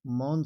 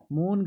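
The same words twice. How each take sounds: First: मौन said as "maun"; मौन with a wide au; correct pronunciation. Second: मौन said as "mon"; मौन with a narrow o, pitched up; wrong pronunciation. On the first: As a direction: open the vowel of मौन to a glide. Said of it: "मौन सही". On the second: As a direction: close the vowel of मौन to a pure o. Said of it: "मौन गलत". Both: Shown as a demonstration.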